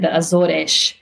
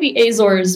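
First: Azores is said with a Portuguese pronunciation. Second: Azores is said with an English pronunciation. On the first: The speaker calls it right. "It's actually the Azores" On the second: The speaker calls it wrong. "I'm saying the Azores, but people are going to call me out"

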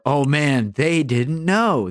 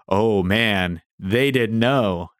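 First: Said in an admiring, impressed tone. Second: Said in a pitying, dismissive tone. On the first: They were insightful and on the right track. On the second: They were naive and got it wrong.

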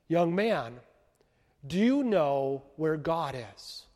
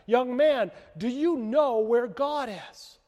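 First: It is said at a normal, quiet volume. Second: It is said loudest and most boldly.

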